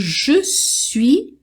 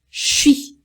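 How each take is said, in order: First: Both syllables are said fully and separately. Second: It is squeezed into a single syllable. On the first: It is the formal, written form. "É o mais formal" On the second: It is casual everyday speech. "informalmente, os franceses têm outra pronúncia"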